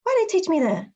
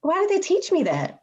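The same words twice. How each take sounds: First: Why raised high and stressed. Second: They raised high and stressed. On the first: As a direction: lift and stress the word why. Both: Real, not acted.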